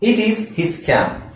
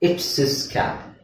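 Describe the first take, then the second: First: 'It is' is said as two full words. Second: 'It is' is shortened to one syllable. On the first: It is the written, bookish form. "ಪುಸ್ತಕದಲ್ಲಿ ಗ್ರಾಂಥಿಕ ಹೇಗಿದೆ ಹಾಗೆ ಓದ್ಬೇಕು" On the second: It is the natural spoken form. "Speaking ಅಂತ ಬಂದಾಗ ... ಎಲ್ಲದನ್ನು short ಮಾಡ್ತೀವಿ"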